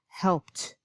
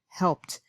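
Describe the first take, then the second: The two takes are said the same way.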